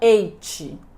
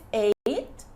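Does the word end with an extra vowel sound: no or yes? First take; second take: yes; no. First: The word ends with an added vowel after the consonant. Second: The word ends on the consonant, no final vowel. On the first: The speaker calls it wrong. "e não ate" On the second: The speaker calls it right. "a gente diz ate"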